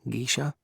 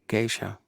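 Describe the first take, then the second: First: The name is said with a put-on foreign accent. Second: The name is said plainly without a put-on accent. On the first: The speaker calls it wrong. "I just wanted to say it with an accent" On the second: The speaker calls it right. "Was that right? Yeah"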